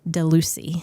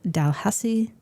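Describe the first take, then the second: First: The name is said as 'Delucy'. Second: The name is said as 'Dalhousie'. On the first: The speaker calls it wrong. "in my head, I pronounced as Delucy" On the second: The speaker calls it right. "it's Dalhousie Castle"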